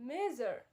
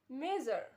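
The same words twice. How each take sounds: No difference in how they are said.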